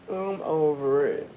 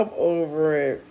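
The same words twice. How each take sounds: First: Softer still, lower, fading out; hushed, fading I'm over it; even quieter. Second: Softer, lower, giving up; low softened I'm over it; quiet, done. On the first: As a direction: let I'm over it trail off into nothing. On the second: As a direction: sigh it out, worn out by laughing. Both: Real, not acted.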